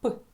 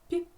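First: The p sound is hard, not palatalized. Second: The p sound is soft, palatalized. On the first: "звук П, твердий" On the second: "цей же приголосний звук вимовимо м'яко"

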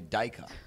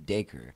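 First: The name has an Australian pronunciation. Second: The name has an American pronunciation. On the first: "Australians say Dacre" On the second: "Americans or North American tends to be Dacre"

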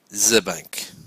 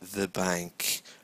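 First: The word 'the' begins with a buzzing z sound. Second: The word 'the' begins with a soft th sound. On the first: The speaker calls it wrong. "rather than the bank, which is wrong" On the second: The speaker calls it right. "how to say the bank"

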